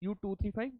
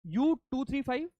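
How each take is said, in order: First: Dictating. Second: Slow, high, spelled out for writing; dictating. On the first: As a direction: say it again calmly for writing. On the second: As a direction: read it out slowly for notes. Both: Shown as a demonstration. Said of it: "let me dictate now".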